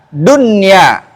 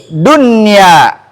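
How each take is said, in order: Both takes have the same delivery.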